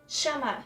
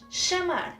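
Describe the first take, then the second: First: It starts with a sh-like sound. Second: The same.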